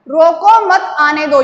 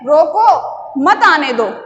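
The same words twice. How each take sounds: First: It runs on without any pause inside. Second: A short pause comes after 'roko'. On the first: It is unclear whether to stop him or let him come. "यहां पर स्पष्टीकरण नहीं हो रहा है" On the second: Stop him there; do not let him come. "मतलब उसको वहीं रोक लो, मत आने दो"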